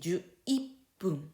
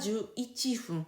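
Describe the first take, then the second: First: The ending is pronounced with a doubled p: ippun. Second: The ending is pronounced unmerged with f: ichifun. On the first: The speaker calls it right. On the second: The speaker calls it wrong.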